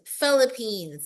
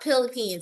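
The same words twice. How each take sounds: First: The word begins with an F sound. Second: The word begins with a P sound. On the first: The speaker calls it right. "it's Philippines" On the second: The speaker calls it wrong. "It's not Philippines"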